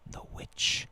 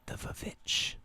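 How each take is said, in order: First: The word begins with a W sound. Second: The word begins with a V sound.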